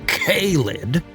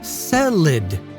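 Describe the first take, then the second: First: The first syllable sounds like 'kay'. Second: The first syllable sounds like 'say'. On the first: "the harsh K-filled K-lid" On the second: "the Sicilian Cestus Caesarian family"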